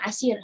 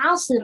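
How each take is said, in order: First: It is said with a plain, light s sound. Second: It is said with a heavy, emphatic s sound. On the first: The day is a difficult one. The speaker calls it right. "hari yang susah" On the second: The day becomes a day of juice. The speaker calls it wrong. "kita bacanya 'asir, jus"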